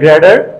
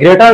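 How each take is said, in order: First: The middle consonant sounds like a d. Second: The middle consonant is a clear t sound. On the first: "বলে গ্রেডার" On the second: "গ্রেটার না বলে"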